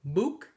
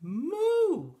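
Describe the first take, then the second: First: Short "mook", cut off with a k and rising; almost moo but stop it with a k, "mook"; cow's unfinished "mook"; near-miss moo. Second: High, loud, long "moo" with an open ending; triumphant full "moo"; successful moo. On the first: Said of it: "And again". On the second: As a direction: let "moo" swoop up and fall, no k. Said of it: "finally went". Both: A narrator's reading.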